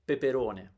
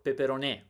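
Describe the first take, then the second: First: The stress is on the third syllable. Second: The stress is on the fourth syllable. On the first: The speaker calls it right. "The third one is correct" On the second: The speaker calls it wrong.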